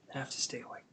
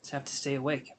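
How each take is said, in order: First: Whispered to herself, softer. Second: Said in the usual way. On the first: Real, not acted. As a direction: breathe it out under your breath. Tired reader urging herself on.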